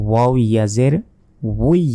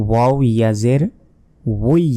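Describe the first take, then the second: Both takes have the same delivery.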